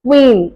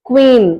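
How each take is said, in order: Both takes have the same delivery.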